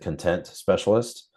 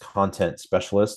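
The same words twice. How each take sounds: First: The stress in 'content' is on the second syllable. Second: The stress in 'content' is on the first syllable. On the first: A specialist who is happy and satisfied. "I like to pronounce it" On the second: A specialist in written and visual material. "the official title is"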